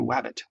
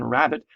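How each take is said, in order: First: The word begins with a W sound. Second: The word begins with an R sound. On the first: "putting the W instead of the R" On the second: "instead of saying rabbit"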